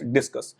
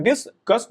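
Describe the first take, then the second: First: Said in the usual way. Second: discuss broken in two, dis, cus; split into syllables. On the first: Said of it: "discuss दो syllable है". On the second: Shown as a demonstration. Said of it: "दो syllable है, जितनी बार आपकी टंग twist होती है".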